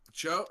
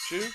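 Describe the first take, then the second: First: Cho with an o vowel as corrected, asked with a rise; Cho pronunciation. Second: Choo with an oo vowel, asked with a rise; Choo pronunciation. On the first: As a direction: try Cho like show, questioning. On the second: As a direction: say Choo like chew, questioning. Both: Real, not acted.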